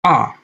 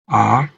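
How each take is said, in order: First: The pitch falls sharply from high to low. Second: The pitch rises from low to high. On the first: "nada jatuh, nada yang menurun" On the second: "nada naik, mengikuti kurva naik"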